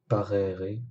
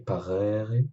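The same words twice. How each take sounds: First: The first vowel e is short. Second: The first vowel e is long. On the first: It means to beget. "parere signifie engendrer" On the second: It means to obey. "cette voyelle prononcée plus longtemps"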